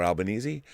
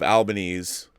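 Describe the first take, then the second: First: Albanese said al-ba-NEE-zee; Albanese ending in -eezee. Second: Albanese said al-ba-NEEZ; Albanese ending in -eez. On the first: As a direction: sound the final E of Albanese as "ee". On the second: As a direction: say Albanese with a silent final E. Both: Shown as a demonstration. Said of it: "don't even know how to pronounce it".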